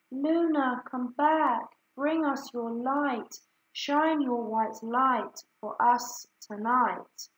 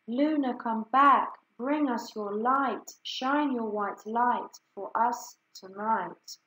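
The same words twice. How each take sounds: First: High ringing call to the lost moon; birds calling. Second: The wind calls out, then settles; wind roaring. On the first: Birds calling out for the moon, high and ringing. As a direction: call out across the caves, lifting the voice. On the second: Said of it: "whispering and then roaring". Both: A narrator's reading.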